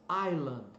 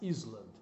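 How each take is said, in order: First: The word is said without an S sound. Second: The word is said with an S sound. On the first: The speaker calls it right. "a pronúncia é island" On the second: The speaker calls it wrong. "jamais; a tendência nossa é colocar esse S"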